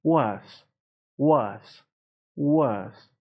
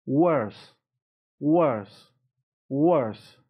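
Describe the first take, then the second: No difference in how they are said.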